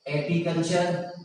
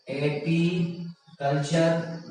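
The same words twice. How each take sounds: First: Said in the usual way. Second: apiculture very slowly, in separated parts; drawn out. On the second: Shown as a demonstration. Teacher reading out option A for students, drawn out. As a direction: break apiculture up slowly with a gap inside.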